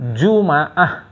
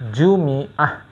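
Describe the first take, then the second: First: The m is followed by an a vowel. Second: The m is followed by an i vowel.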